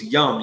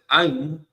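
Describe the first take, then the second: First: The suffix begins with a y sound. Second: The suffix begins with a plain vowel. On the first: "but in Hebrew it's yum" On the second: "they're going to pronounce it I'm"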